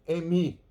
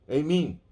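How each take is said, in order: No difference in how they are said.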